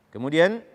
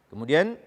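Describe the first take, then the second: No difference in how they are said.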